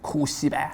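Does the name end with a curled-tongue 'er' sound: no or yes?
no. It ends without a curled-tongue 'er' sound.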